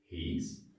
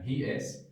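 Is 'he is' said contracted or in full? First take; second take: contracted; full. First: The words are joined into one short syllable. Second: Both words are said separately in full. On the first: "we can say he's" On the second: "instead of saying he is going"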